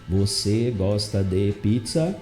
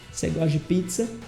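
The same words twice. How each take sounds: First: The words are said separately, in a choppy way. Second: The words run together, with você reduced to cê. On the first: The speaker calls it wrong. "Ninguém fica falando quebrado" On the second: The speaker calls it right. "A gente fala C"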